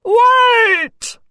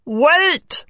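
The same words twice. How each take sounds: First: Very high frog shout; high, shouted frog plea; frog's cry. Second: Higher-pitched frog, not shouted; contained frog interjection; frog interrupting. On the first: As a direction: call out desperately after someone running away. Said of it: "cried the little frog". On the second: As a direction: cut in as the frog, mildly. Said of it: "said the frog". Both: A narrator's reading.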